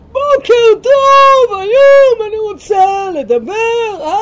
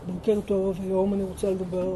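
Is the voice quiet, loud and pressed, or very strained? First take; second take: very strained; quiet. First: The voice is extremely strained and forced. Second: The voice is quiet and held back inward. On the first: An exaggerated version of the harmful pushing. "כאילו שזה הדבר הכי גרוע... זה כמובן מוגזם" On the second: The voice is directed inward instead of outward. "מדברים פנימה במקום החוצה"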